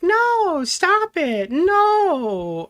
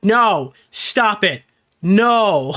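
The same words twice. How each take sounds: First: It is said as the girl would say it. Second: It is read out in a put-on judge voice.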